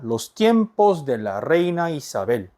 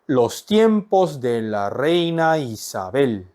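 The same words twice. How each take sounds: First: The phrase is said at a normal pace. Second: The phrase is said slowly and deliberately.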